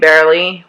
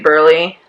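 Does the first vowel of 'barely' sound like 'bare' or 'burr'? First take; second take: bare; burr. First: The first vowel sounds like 'bare'. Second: The first vowel sounds like 'burr'. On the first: This is the usual way of saying it. "instead of saying barely" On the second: "we say burly"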